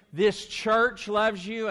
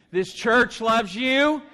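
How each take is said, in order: First: Said in the usual way. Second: Louder, rising, slow and bold; stronger and louder. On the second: Shown as a demonstration. Pastor asking the congregation for a stronger response. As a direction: push more energy into the room. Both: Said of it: "That was weak".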